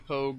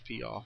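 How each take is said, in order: First: The name is said like 'pogue'. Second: The name is said like 'pee-ow'. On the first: Some other people say it this way. "I've heard some people say Pogue" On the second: The speaker has always thought it is said this way. "I've always thought it was Piaw"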